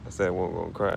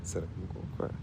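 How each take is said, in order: First: Softer, crying through the words; tearful. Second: Breathless tearful whisper; crying whisper. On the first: Grieving owner admits he's crying, tearful. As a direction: let the tears break in. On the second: Owner breaks down over his dog, crying whisper. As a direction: barely get it out through tears. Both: Real, not acted.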